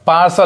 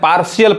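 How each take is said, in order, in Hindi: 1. 'sh' के बाद कोई अतिरिक्त अक्षर नहीं है। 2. 'sh' के बाद एक अतिरिक्त 'ee' अक्षर है।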